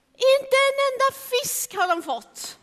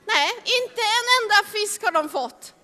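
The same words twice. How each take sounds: First: Inte said high and strong, rest falling; stress on inte. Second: En stressed, the line otherwise even. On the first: Storyteller stressing that not one fish was caught, inte high. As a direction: lean hard on inte. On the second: Storyteller repeating the line with the weight moved to en. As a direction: press on en, not on inte. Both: Shown as a demonstration.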